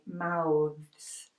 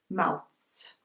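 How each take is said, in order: First: The th is buzzing and voiced. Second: The th is airy and unvoiced. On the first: The speaker calls it right. "we say mouths" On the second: The speaker calls it wrong. "We don't say mouths"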